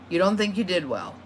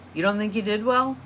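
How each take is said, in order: First: The voice falls at the end. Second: The voice rises at the end.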